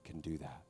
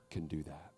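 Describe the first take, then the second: No difference in how they are said.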